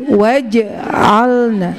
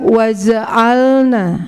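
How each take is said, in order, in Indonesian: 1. Konsonan di tengah terdengar seperti j. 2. Konsonan di tengah terdengar seperti z. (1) "tapi waja'alna" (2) "bukan waja'alna"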